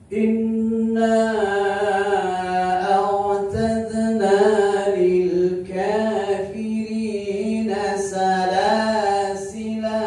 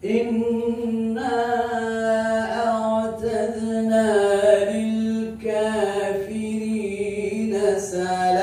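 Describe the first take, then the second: First: The final word ends with a lengthened vowel. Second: The final word ends on a bare consonant. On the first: "Boleh panjang dua harakat" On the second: "boleh sukun"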